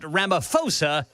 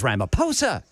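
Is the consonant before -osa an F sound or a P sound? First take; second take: F; P. First: The ph is said as an F sound. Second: The ph is said as a P sound. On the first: The speaker calls it wrong. "it is not Ramaphosa" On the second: The speaker calls it right. "the H is silent"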